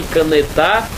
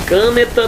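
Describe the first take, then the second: First: "canetar" drawn out slowly onto final TAR; slow down and stress the end of "canetar"; stress on last syllable. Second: "câneta" with a strong first CÂ; stress on first syllable. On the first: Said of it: "aí ficaria canetar". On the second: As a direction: put the beat on CÂ in "câneta". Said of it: "aí ficaria câneta". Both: Shown as a demonstration.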